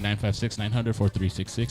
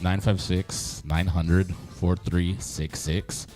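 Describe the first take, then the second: First: The number is said quickly. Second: The number is said slowly.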